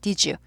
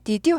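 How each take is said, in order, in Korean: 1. 두 단어가 하나의 부드러운 소리로 붙어요. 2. 두 단어를 따로, 또렷하게 발음해요. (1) "발음이 부드러워지죠" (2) "did you 하지 않고"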